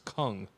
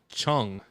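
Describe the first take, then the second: First: The name begins with a 'k' sound. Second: The name begins with a 'ch' sound. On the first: The speaker calls it right. "It's Kung" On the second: The speaker calls it wrong. "They do not pronounce the C H like Chung"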